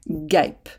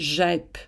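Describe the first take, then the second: First: The word starts with a hard g sound. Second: The word starts with a soft g sound. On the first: "en insérant le U ... on obtient GEP" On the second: "Si on ne met pas le U, ça donnerait GEP"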